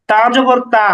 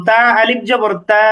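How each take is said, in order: First: Said in the usual way. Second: Final "তা" stretched long; long pronunciation. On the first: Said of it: "হরকতের উচ্চারণে কোনো টান হয় না". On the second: Shown as a demonstration. Teacher demonstrating two a-vowels merged, "তা" held long. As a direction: hold "তা" out for one alif. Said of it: "আমরা এটা দীর্ঘ উচ্চারণ করব".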